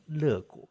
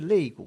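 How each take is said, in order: First: The first syllable is pronounced le. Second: The first syllable is pronounced lei. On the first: The name used by the program. The speaker calls it wrong. "为什么念成乐谷" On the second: The standard word for rib. The speaker calls it right. "明明是肋骨"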